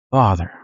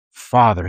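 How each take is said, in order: First: Father said low and tender; prayerful address; reverent Father. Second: Father said low and gently; reverent Father. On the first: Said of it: "he says". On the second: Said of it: "that word right there". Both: Shown as a demonstration.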